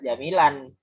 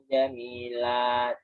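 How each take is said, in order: First: The word ends with an added n sound. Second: The word ends on a long a, no n. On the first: The speaker calls it wrong. "tapi tidak jamilan" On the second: The speaker calls it right. "Fathahnya dibaca satu dan panjang dua"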